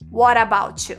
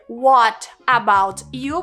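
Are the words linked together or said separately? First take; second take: linked; separately. First: The words run together with linked sounds. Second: Each word is said separately, without linking. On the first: The speaker calls it right. "você vai dizer" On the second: The speaker calls it wrong. "ao invés de você dizer"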